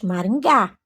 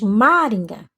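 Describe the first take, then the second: First: The stress falls on the last syllable. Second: The stress falls before the last syllable. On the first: The speaker calls it right. "Você diz Maringá. Então, Gá é a sílaba tônica" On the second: The speaker calls it wrong. "Você não diz Maringa"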